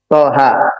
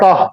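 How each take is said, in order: First: It is said as two syllables, to-ha. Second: It is said as one short syllable. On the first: The speaker calls it right. "tapi ... Toha" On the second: The speaker calls it wrong. "nggak dibaca Toh"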